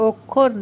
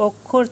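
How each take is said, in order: No difference in how they are said.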